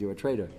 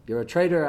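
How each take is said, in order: First: Said in the usual way. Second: Traitor hit firm with a falling end; a blunt charge of traitor; accusing stress on traitor. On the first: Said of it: "I don't care what the storyline is". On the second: Shown as a demonstration. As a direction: land hard on traitor as an accusation. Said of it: "this is hard for people to hear".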